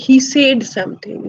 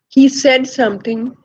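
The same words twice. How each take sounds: First: The vowel in said sounds like ay. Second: The vowel in said is a short eh. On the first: The speaker calls it wrong. "somebody might say" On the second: The speaker calls it right. "instead of saying"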